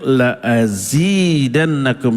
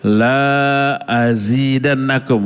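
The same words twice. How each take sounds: First: The vowel in 'la' is kept short. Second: The vowel in 'la' is drawn out long. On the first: I will surely increase it. The speaker calls it right. "Wajib dibaca pendek" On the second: I will not increase it. The speaker calls it wrong. "nggak boleh ... Kalau dibaca panjang disebut lam nafi"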